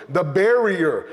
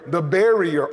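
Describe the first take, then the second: No difference in how they are said.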